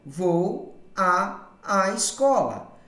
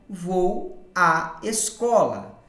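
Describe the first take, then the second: First: The 'a' sound is said twice in a row. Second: The two 'a' sounds merge into one. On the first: The speaker calls it wrong. "a construção nessa frase seria" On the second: The speaker calls it right. "ocorre então a fusão... a pronúncia ficaria"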